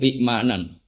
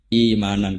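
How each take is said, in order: First: A glottal stop follows the first vowel. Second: The first vowel is lengthened with no stop.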